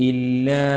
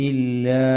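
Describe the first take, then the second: No difference in how they are said.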